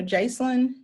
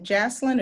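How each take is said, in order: First: "Jacelyn" said JAYCE-lin, long a; first syllable of "Jacelyn" rhymes with "race"; long-A pronunciation. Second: "Jacelyn" said JASS-lin, short a; first syllable of "Jacelyn" rhymes with "lass"; short-A pronunciation. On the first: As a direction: say "Jacelyn" with the vowel of "face" first. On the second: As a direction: say "Jacelyn" with the vowel of "cat" first. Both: Shown as a demonstration. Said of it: "is it Jacelyn or Jacelyn".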